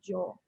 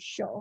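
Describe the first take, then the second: First: The word begins with a j sound. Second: The word begins with a sh sound. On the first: This is how it is said in Paraguay. "in Paraguay we say more like yo, like more like a J" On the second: This is how it is said in Argentina. "in Argentina they say show"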